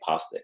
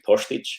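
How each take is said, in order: First: The middle consonant is a plain s sound. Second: The middle consonant is a sh sound. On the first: This is how most people say the name. "everybody calls me Postic" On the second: This is the proper pronunciation of the name. "if you want to pronounce it properly, it's actually Postich"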